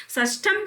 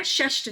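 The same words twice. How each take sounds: First: षष्ठम said "sas-tham"; final m on षष्ठम; wrong ending. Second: षष्ठ said "shash-th"; sh sounds and no final m in षष्ठ; short form षष्ठ without "-am"; correct form. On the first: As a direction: add "-am" at the end of षष्ठम. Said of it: "षष्ठम शब्द गलत है". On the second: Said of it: "षष्ठ शब्द होता है". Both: Shown as a demonstration.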